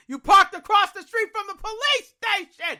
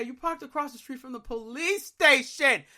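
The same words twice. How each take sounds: First: Higher, louder, like a scolding inner voice; voice in my head. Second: Said in the usual way. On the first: Retold or imitated. Inner voice yelling at himself after losing the car, higher and louder. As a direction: blare it like the thought finally hits. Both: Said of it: "That's what I'm hearing in my head".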